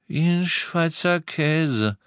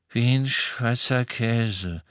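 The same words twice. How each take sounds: First: Slow, higher, drawn-out repetition; deliberate, slow restating; insistent repeat. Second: Slow, dazed mumble; groggy, drawn-out words; weak murmur. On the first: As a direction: stretch each word out, pitched up. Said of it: "wiederholte George". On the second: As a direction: drag it out as if half awake. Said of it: "murmelte er". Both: A narrator's reading.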